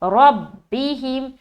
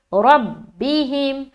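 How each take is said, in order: First: The doubled b is joined firmly with pressure. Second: The doubled b is joined firmly with pressure.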